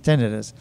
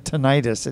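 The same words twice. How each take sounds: First: The ending is not said like '-itis'. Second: The ending is said like the '-itis' ending. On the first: The speaker calls it right. "It's not. It's tinnitus" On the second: The speaker calls it wrong. "because it ends in I T I S, somebody didn't bother looking it up"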